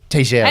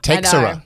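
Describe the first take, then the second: First: The name is said with a Portuguese-style pronunciation. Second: The name is said with an English-style pronunciation. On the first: The speaker calls it right. "but it's Teixeira" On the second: The speaker calls it wrong. "People have been calling him Teixeira"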